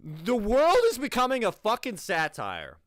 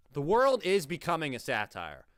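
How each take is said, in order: First: Louder, higher, fed-up rant; exasperated yell at the screen; exasperated outburst. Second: Said in the usual way. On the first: Real, not acted. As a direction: blurt it out in disbelief. Ranting at absurd video.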